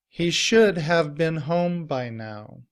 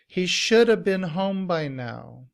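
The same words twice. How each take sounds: First: Should have is said in full, with a v. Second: Should have is blended into shoulda, without v. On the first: "in citation form" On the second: "in reduced form, we combine the word should and have together"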